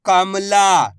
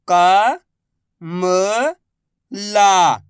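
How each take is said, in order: First: Said in the usual way. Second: Very slow, each syllable drawn out. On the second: Shown as a demonstration. Teacher sounding out a word for pupils, slow syllables. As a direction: spell the word out slowly for a child. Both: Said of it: "मैं किस तरीके से".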